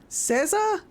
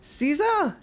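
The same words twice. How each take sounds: First: "Caesar" with a short E, SEZ-er; alternative pronunciation. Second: "Caesar" with a long EE, SEE-zer; trial pronunciation. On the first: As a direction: try "Caesar" as SEZ-er, high and questioning. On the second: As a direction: try "Caesar" as SEE-zer, high and questioning. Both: Shown as a demonstration. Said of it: "How do I pronounce your name?".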